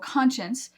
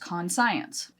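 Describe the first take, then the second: First: It is said with its usual pronunciation. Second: It is said in parts, con plus science.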